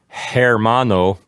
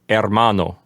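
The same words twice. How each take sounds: First: The word starts with an h sound. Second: The word starts with no h sound. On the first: The speaker calls it wrong. "instead of saying" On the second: The speaker calls it right. "we would say"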